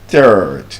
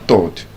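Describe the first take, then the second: First: The vowel has the long R sound. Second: The vowel lacks the long R sound. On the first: The speaker calls it right. "the long R sound" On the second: The speaker calls it wrong. "You're not the third"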